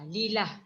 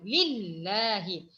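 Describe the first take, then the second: First: The middle L sound is single and short. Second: The middle L sound is doubled and held. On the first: The speaker calls it wrong. "Itu salah. nada ada bunyi sabdu" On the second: The speaker calls it right. "sebutan yang bertanda sabdu"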